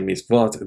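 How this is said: The word ends with a t sound. This is the speaker's own community's pronunciation. "we say misvot"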